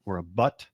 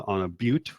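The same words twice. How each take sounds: First: "butte" said like "but"; alternative pronunciation. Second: "butte" said like "byoot"; alternative pronunciation. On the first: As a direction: say "butte" with a short "uh" as in "butt". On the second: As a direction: say "butte" with a long "yoo" vowel. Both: Shown as a demonstration. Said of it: "whichever you prefer".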